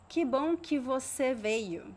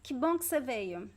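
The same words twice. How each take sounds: First: Every word is fully and separately articulated. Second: Some words are reduced and run together. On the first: It sounds robotic. The speaker calls it wrong. "Nobody will say, ... it sounds like a robotic" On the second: This is how people speak naturally. The speaker calls it right. "So you see two reductions here"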